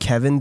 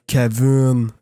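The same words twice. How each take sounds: First: The name is said the plain English way. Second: The name is said the Quebecois way.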